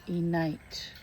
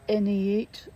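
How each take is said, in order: First: The name is said as N plus eight. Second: The name is not said as N plus eight. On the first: The speaker calls it right. "it should be N eight" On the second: The speaker calls it wrong. "I pronounced wrong"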